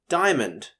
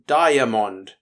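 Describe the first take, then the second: First: The middle vowel drops, giving two syllables. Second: Every letter is voiced, giving three syllables. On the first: It is the everyday pronunciation. "When we pronounce it normally though, we don't even say the A in the prefix" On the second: It helps recall the spelling. "I used to pronounce it diamond to remember how to spell this word"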